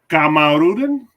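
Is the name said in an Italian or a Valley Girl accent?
Italian. The name is said in an Italian accent. "make him sound Italian"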